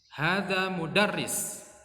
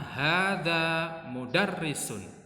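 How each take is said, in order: First: The last word stops on a bare consonant. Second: The last word ends with a full -un syllable. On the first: "huruf terakhir cukup kita sukun atau kita matikan" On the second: "Jadi tidak perlu mudarrisun"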